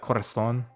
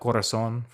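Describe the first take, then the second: First: The z is said with a th sound. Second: The z is said with an s sound. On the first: "they would say like corazon" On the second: "we would say like corazon"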